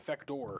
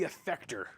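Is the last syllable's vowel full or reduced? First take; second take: full; reduced. First: The last syllable has a full 'or' vowel. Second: The last syllable has a reduced, weak vowel.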